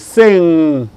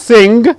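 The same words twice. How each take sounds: First: The word ends in a pure nasal sound. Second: The ending is not a pure nasal sound. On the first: The speaker calls it right. "it is sing" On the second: The speaker calls it wrong. "It's not sing"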